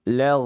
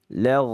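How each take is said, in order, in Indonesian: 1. Konsonan itu mengalir lembut dengan udara yang terus-menerus. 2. Konsonan itu mengalir lembut dengan udara yang terus-menerus.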